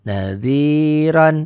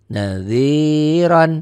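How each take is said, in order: No difference in how they are said.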